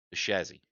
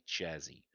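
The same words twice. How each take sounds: First: Said in the usual way. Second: "chassis" starting with a hard CH; deliberately silly "chassis", CH instead of SH. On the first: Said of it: "if you wanna be stupid". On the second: Shown as a demonstration. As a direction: say "chassis" with CH as in chat. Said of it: "if you wanna be stupid, say".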